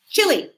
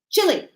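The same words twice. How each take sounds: First: The first vowel is kept short. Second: The first vowel is kept short.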